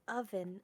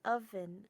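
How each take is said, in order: No difference in how they are said.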